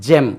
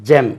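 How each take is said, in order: First: The word begins with a j sound. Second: The word begins with a j sound.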